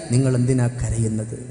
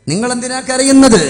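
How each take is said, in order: First: Said in the usual way. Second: High, loud intoned cry; raised plaintive question. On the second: Retold or imitated. Wife asks Ali why he weeps, high intoned cry. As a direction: swell upward and ring the question out.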